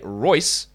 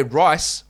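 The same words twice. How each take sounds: First: "Royce" stressed with a clear OY vowel. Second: "rice" stressed with a clear EYE vowel; rice with long I. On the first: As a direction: enunciate "Royce" with an oy glide. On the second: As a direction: enunciate "rice" with an eye glide. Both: Shown as a demonstration. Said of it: "those words are very different".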